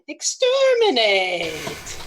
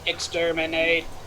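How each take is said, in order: First: It is said in a Skeksis voice. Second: It is said in a Dalek voice.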